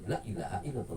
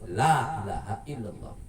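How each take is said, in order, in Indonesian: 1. Vokal pertama pendek dan cepat. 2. Vokal pertama dipanjangkan. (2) "tapi ... Ada matnya, ada panjangnya"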